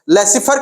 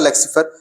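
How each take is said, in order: First: No k sound comes before the s. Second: A k sound comes before the s. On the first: The speaker calls it right. "लेसिफर कहिए उसको" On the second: The speaker calls it wrong. "लेक्सिफर नहीं"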